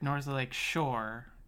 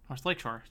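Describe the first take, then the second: First: The stress falls on the word Shore. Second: The stress falls on the word Lake. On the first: The speaker calls it wrong. "No, that sounds wrong" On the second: The speaker calls it right.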